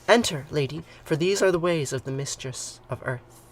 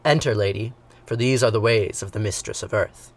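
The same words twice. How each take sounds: First: It is read in the speaker's ordinary voice. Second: It is read in a put-on deep man's voice.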